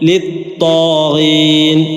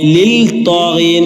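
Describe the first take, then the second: First: The l merges into a doubled t sound. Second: A clear l sound comes before the t. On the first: The speaker calls it right. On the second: The speaker calls it wrong.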